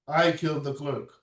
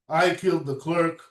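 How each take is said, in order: Both takes have the same delivery.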